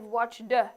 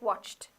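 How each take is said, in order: First: The ending is said as an extra syllable. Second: The ending is said as a plain t sound. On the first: The speaker calls it wrong. "So you don't say yes, I've watched the" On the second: The speaker calls it right. "It's like the t sound"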